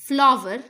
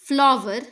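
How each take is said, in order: No difference in how they are said.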